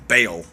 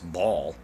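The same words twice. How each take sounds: First: The word sounds like 'bail'. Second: The word does not sound like 'bail'. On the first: This is how it is said today. "it's Baal, I guess, today, which would be B A I L" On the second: This is how it was said in the past. "but it was Baal"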